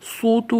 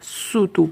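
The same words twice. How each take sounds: First: The s sound is heavy and emphatic. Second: The s sound is light and plain. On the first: The speaker calls it wrong. "यहाँ पर सूतू नहीं" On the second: The speaker calls it right. "बल्कि सूतू पढ़ना है"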